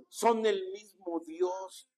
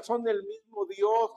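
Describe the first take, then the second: First: Slow, every word weighed; slow emphasis. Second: Said in the usual way. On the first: Shown as a demonstration. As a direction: spell it out slowly for the flock. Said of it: "Diga, son el mismo Dios". (despacio y enfático: "son el mismo Dios")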